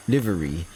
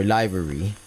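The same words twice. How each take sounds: First: Livery said LIV-uh-ree; livery, first syllable rhyming with give; short-i pronunciation. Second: Livery said LIE-vuh-ree; livery, first syllable rhyming with lie; long-i pronunciation. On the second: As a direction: say livery with a long i, as in live music. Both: Shown as a demonstration. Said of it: "or livery".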